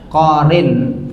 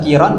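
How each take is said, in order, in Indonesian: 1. Vokalnya o lalu i. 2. Vokalnya i lalu o. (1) "bisa korin. Boleh" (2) "bisa kiron"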